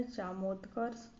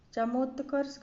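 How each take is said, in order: First: चामोत्कर्ष with long first vowel; correct long A. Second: चमोत्कर्ष with short first vowel; wrong short A. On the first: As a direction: say चामोत्कर्ष as "chaamotkars". (चामोत्कर्ष में लंबा "चा") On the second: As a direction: say चमोत्कर्ष as "chamotkars". (चमोत्कर्ष में छोटा "च") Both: Shown as a demonstration. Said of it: "गलत है".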